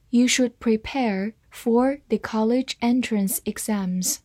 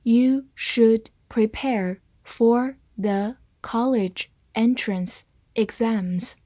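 First: Said in the usual way. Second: Very deliberate word-by-word reading; slow reading. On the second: Shown as a demonstration. Teacher modelling the exam sentence for learners, slowly. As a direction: leave a gap after each word, slowly. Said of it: "好，慢读一遍".

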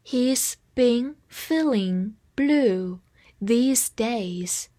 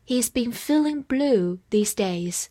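First: Very slow, word by word with pauses; drawn-out, measured model sentence; slow read-along. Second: Said in the usual way. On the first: Shown as a demonstration. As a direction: read it slowly for learners to repeat. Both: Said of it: "跟我慢读一遍".

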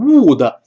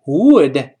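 First: "would" with a tight oo, like Chinese 屋的; wrong-example "would", pure oo plus an added syllable; mispronounced "would". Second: "would" with a short, relaxed vowel after a rounded w; correct "would". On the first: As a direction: say "would" as a heavy "woo-de". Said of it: "不要读would". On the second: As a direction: draw out "would" with a lax, central vowel. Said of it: "注意，would同样不要读would". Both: Shown as a demonstration.

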